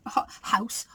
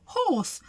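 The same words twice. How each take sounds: First: Said in the usual way. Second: "Horse" said as a fixed correction of "house", higher; corrected word. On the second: Shown as a demonstration.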